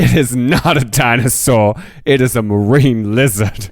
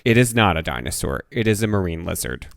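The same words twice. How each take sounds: First: It is said sassily, with attitude. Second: It is said plainly, without attitude.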